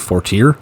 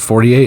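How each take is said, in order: First: The name is said with an English-style pronunciation. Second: The name is said with a French-style pronunciation. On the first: The speaker calls it right. "it's actually Fortier" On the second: The speaker calls it wrong. "I pronounced it Fortier"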